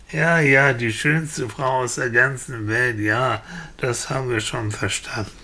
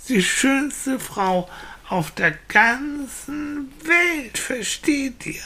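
First: Resigned repeat, sinking and softening; weary villagers. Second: Put-on high, slow, stretched-out childish insistence; insistent little boy. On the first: Acted. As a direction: brush off what you've heard too often. Villagers wearily repeat boy's words. (genervt und resigniert abwinkend) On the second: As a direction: spell it out for slow grown-ups. (kleiner Junge, langsam und mit Nachdruck)

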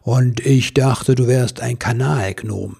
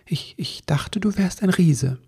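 First: Slow, louder teasing Santa; big, deliberate, amused delivery; grinning Santa. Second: Hesitant, slightly higher little-elf voice; mildly bashful confession; embarrassed elf. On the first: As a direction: tease with a broad grin in the voice. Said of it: "Der Weihnachtsmann grinste". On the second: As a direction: stammer it out a bit sheepishly. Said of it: "sagte Ribbelwitsch ein wenig verlegen". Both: Acted.

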